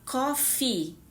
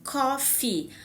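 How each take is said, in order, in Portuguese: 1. A vogal final é longa. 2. A vogal final é longa.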